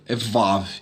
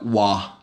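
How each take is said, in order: First: The name begins with a v sound. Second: The name begins with a w sound. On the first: This is the modern pronunciation. "Se você seguir a pronúncia moderna dessa, dessa letra" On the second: This is the ancient pronunciation. "no hebraico antigo não tinha Vav, o nome dessa letra era Wa"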